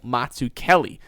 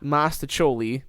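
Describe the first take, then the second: First: The middle of the name sounds like 'zook'. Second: The middle of the name sounds like 'stach'. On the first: The speaker calls it right. "but it's Samuel Mazzucchelli" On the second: The speaker calls it wrong. "like I want to pronounce it really badly"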